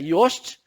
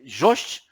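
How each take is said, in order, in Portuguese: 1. O nome começa com som de Y. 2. O nome começa com som de J. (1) "mas a pronúncia é Yost" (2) "Algumas pessoas chamam de Jost"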